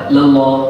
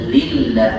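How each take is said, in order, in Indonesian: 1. Bunyi l-nya tebal dan berat. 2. Bunyi l-nya tipis dan ringan. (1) "Jangan baca lillah" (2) "Tapi lillah"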